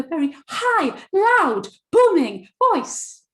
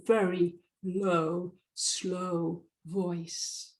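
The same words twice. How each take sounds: First: Much higher, booming shout, each word held; high, loud, booming. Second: Slow, drawn-out low delivery. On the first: Coach imitating an overbearing presenter, high, loud and booming. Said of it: "with a very high, loud, booming voice". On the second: Coach showing audience a monotone speaker, low and slow. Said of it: "speaks with a very low, slow voice". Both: Shown as a demonstration.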